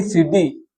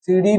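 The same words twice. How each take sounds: First: Said in the usual way. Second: सीढ़ी as "seeri", a flap without breath; unaspirated flap. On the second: Shown as a demonstration. Teacher showing a wrong form, unaspirated flap in सीढ़ी. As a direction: take the puff off the end of सीढ़ी. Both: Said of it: "नहीं".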